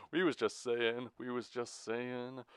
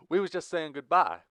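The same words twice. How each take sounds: First: Higher, falsely charming stalling; plastic charisma. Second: High, loud interjection; honest, blunt outburst. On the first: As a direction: stall with put-on salesman charm. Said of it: "spoke with plastic charisma". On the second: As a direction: cut in forcefully and mean it. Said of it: "intervened with a much more honest tone". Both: A narrator's reading.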